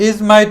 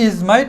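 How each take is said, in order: The two takes are said the same way.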